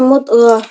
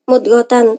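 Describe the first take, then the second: First: The word ends with a soft h sound. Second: The word ends with a -tan syllable. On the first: The reader stops on this word. "ketika waqaf maka dibaca mudghah" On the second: The reading continues into the next word. "ketika wasal maka dibaca mudghatan tetap"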